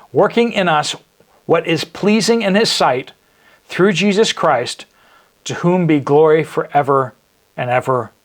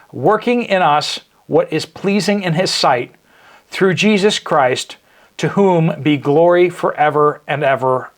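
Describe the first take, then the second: The two takes are said the same way.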